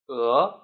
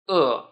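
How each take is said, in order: First: The pitch rises on the syllable. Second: The pitch does not rise on the syllable. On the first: The word means goose. "the second tone, which is the rising tone" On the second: The word means hungry. "which means hungry"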